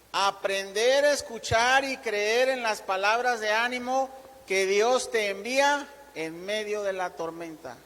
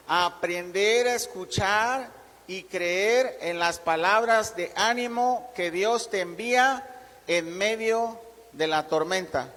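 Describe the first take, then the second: First: Deliberate read-out of a key point; measured reading aloud. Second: Slow, deliberate phrases with pauses between; slow dictation. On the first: Preacher reads first point to congregation writing it down, measured reading. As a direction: read it out clearly for note-takers. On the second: Preacher repeats first point so congregation can note it, slow dictation. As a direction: dictate it slowly so they can write. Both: Shown as a demonstration. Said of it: "lo voy a leer despacio".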